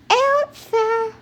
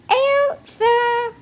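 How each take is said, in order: First: It is said in a tiny, high baby voice. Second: It is said in a tiny, high baby voice.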